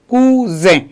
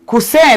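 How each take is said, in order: First: The middle consonant is a buzzing Z sound. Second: The middle consonant is a hissing S sound. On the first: The speaker calls it right. "on lit automatiquement Z. On dit cousin" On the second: The speaker calls it wrong. "au lieu de dire coussin là, ça se résonne mal"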